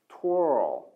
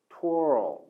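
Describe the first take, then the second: The two takes are said the same way.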